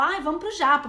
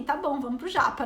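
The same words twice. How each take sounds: First: Eager and louder, like a celebration; excited. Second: Shrugging, going along with it; unenthused. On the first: São Paulo friends inviting everyone, thrilled and louder. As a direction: cheer for going out for sushi. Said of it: "parece que é uma celebração ir pro japa". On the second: She answers the sushi invitation, mildly unimpressed. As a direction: agree without any excitement. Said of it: "e pra mim é tipo assim". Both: Retold or imitated.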